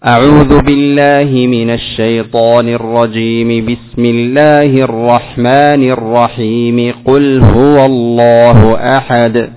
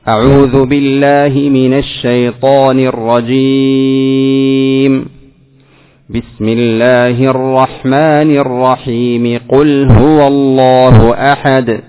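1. تُوصل الجمل الثلاث دون وقف. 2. هناك وقف بعد الجملة الأولى فقط. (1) "وصلت الثلاث" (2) "قطعت الأول وصلت الثاني بالثالث"

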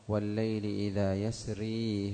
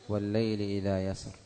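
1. تنتهي الكلمة الأخيرة بحركة 'i'. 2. تنتهي الكلمة الأخيرة بحرف ساكن. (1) "وإذا وصلوا" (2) "إذا وقفوا"

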